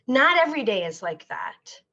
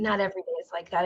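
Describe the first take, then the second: First: Said in the usual way. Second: Rushed, softer aside to herself; hurried, softer reassurance; fast soft repeat. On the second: Real, not acted.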